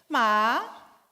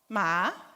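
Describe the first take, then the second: First: It carries the tone of the word 'dog'. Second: It carries the tone of the word 'horse'. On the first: It means dog. "Ma quer dizer cachorro" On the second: It means horse. "Ma quer dizer cavalo"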